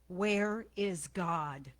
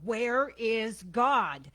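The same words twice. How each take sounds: First: It is said at a calm, normal volume. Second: It is said with a raised, louder voice.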